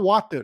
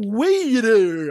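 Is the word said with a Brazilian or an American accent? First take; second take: Brazilian; American. First: It is said plainly with a Brazilian accent. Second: It is said with a forced American accent.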